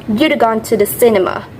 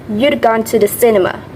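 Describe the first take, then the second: Both takes have the same delivery.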